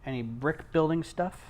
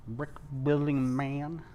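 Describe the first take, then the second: First: Said in the usual way. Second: Slow, drawn-out teasing question; playful slow repeat. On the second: Pretend. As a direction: stretch it out lazily, teasing.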